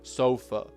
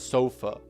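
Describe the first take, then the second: First: The final vowel is a weak schwa. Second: The same.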